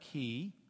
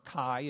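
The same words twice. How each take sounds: First: The word is said in the non-fraternity way. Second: The word is said the way fraternities say it. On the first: "That's the Greek letter chi" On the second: "if you're into sorority and fraternity talk"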